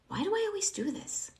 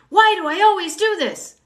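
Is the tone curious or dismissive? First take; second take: curious; dismissive. First: It sounds curious and open. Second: It sounds dismissive and judgmental.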